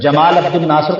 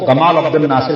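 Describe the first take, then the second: First: The name begins with a j sound. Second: The name begins with a hard g sound.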